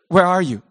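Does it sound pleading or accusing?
accusing. It sounds like an angry accusation.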